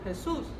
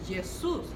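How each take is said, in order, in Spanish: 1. El nombre empieza con un sonido áspero y gutural. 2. El nombre empieza con un sonido suave de y. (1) "nosotros traducimos Jesús" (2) "es como una Y, es Jesús"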